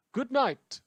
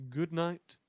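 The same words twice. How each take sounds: First: Loud sign-off. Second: Said in the usual way. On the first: Acted.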